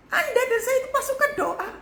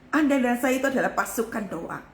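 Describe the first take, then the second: First: Much higher, strained pitch; pitched-up exhortation to the congregation; high-pitched repeat. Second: Said in the usual way. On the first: Real, not acted.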